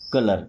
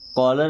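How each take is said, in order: First: The first vowel is a short 'uh' sound. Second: The first vowel is an open 'aw' sound. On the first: The speaker calls it right. "क्या है? कलर" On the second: The speaker calls it wrong. "कॉलर नहीं बोलना"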